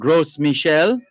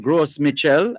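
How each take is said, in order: First: It is pronounced the French way. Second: It is pronounced the Jamaican way.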